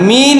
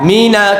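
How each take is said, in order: First: The word ends on the consonant, no vowel. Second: The word ends with an added vowel sound. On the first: The speaker calls it right. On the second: The speaker calls it wrong.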